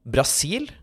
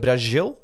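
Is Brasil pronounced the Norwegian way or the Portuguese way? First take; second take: Norwegian; Portuguese. First: It is pronounced with Norwegian sounds. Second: It is pronounced with Portuguese sounds.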